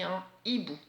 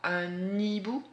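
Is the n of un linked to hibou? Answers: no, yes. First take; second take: no; yes. First: No n sound links into hibou. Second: The n sound links into hibou. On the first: The speaker calls it right. "on dit un hibou" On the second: The speaker calls it wrong. "on ne dit pas un hibou"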